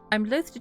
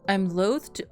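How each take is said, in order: First: It is said in a British accent. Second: It is said in the speaker's normal accent.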